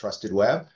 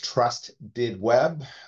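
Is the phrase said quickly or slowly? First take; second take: quickly; slowly. First: The words are said quickly and run together. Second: The words are said slowly and kept separate.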